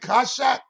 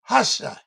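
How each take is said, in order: First: The word begins with a hard k sound. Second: The word begins with a throaty h sound. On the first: "You can pronounce the ka" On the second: "but you don't have to"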